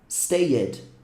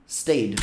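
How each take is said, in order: First: The -ed is said as an extra syllable. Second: The -ed is not said as a syllable. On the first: The speaker calls it wrong. "Não é stayed" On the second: The speaker calls it right. "Esse E também não é falado"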